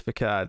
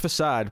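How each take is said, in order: First: The middle consonant is a hard k sound. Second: The middle consonant is a soft s sound. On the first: The speaker calls it wrong. "every so often I'll slip and say facade" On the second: The speaker calls it right. "I know it's facade"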